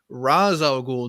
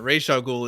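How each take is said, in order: First: The first name ends in a z sound. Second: The first name ends in an sh sound. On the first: It is the accurate Arabic pronunciation. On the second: It fits the character's ethnicity. "the one that's actually ethnically correct"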